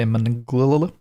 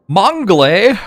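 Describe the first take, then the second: First: The word is pronounced with an English-style sound. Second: The word is pronounced with a French-style sound. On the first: The speaker calls it wrong. "A lot of English speakers get it wrong and just say Manglil" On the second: The speaker calls it right. "that's the correct pronunciation"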